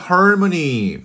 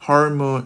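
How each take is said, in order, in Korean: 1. 한국어 원래 단어처럼 발음합니다. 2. 영어 단어 harmony처럼 발음합니다. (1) "발음 굉장히 좋죠" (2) "마치 외국인처럼"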